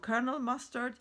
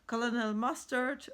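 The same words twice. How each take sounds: First: Colonel is said the usual English way. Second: Colonel is read as spelled, German style. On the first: "maybe in English you say Colonel" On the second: "I say Colonel because in, in German we would read it Colonel"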